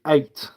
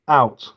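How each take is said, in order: First: The vowel sounds like an 'ay' sound. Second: The vowel is a plain 'ow' sound. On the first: "if you go to the next town, they say eight" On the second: "instead of saying out"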